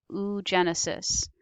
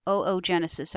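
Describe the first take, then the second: First: Oogenesis opened with one "oo" sound; oo-genesis pronunciation. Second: Oogenesis opened with two "oh" sounds; oh-oh-genesis pronunciation. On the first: Teacher names the female process, oogenesis said "oo-JEN-uh-sis". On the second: Teacher gives an alternative, oogenesis said "oh-oh-JEN-uh-sis". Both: Shown as a demonstration. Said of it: "I've heard it also pronounced that way".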